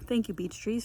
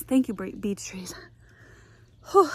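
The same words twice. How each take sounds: First: Said in the usual way. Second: Panting, half-whispered thanks "Thank you, bre-, beech trees"; out of breath. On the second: Real, not acted. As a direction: gasp out "beech trees" after the climb. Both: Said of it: "Sorry, I'm out of breath".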